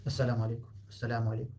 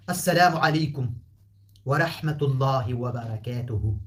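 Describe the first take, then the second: First: السلام عليكم said quickly and quietly, no ع; a light, casual السلام عليكم; simple everyday greeting. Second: السلام عليكم loud, with a careful Arabic ع; full Arabic greeting. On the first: Teacher showing the everyday Pashto greeting. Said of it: "شيء بسيط يعني". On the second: Teacher showing the formal Arabic greeting. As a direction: pronounce ورحمة الله وبركاته slowly and fully. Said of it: "لا أقول". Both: Shown as a demonstration.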